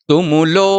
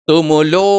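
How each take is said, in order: Both takes have the same delivery.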